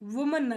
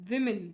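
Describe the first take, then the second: First: The first syllable has an oo vowel. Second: The first syllable has a short i vowel. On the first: The speaker calls it wrong. "ವುಮನ್ ಅಲ್ಲ" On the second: The speaker calls it right. "ವಿಮೆನ್ ಅಂತ ಓದ್ಬೇಕು, ವಿ ಮಿನ್"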